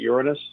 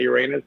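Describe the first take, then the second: First: It is said in the classy, polite way. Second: It is said in the joking, rude-sounding way. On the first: The speaker avoids the rude-sounding joke. "I'll pronounce it Uranus to, to sound like, you know, like classy" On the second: It sounds like a rude joke. "but also like not to say Uranus"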